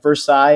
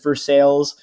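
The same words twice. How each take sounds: First: The word is pronounced the usual way. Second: The word is pronounced in a mangled way. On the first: "he's talking about like Versailles" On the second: "he mispronounces them... and he says Versailles"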